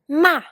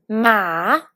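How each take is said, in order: First: The syllable carries the fourth tone. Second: The syllable carries the third tone. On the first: "pour le quatrième ton" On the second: "pour le troisième ton"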